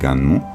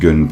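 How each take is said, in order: First: The name is said with Japanese sounds. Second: The name is read with French sounds. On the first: It is said the way it is said in Japan. "à la japonaise" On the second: It is said the way it looks when read. "Moi je le prononce Gun parce que bah, c'est comme ça que je l'ai lu"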